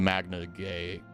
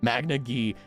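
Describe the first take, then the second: First: The last word rhymes with day. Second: The last word rhymes with see. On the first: The speaker calls it wrong. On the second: The speaker calls it right. "it's Gee"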